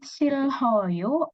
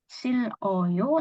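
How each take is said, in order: First: An h sound is heard in the middle. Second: An l sound is heard in the middle. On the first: "bukan Silhoyo" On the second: "atau Siloyo"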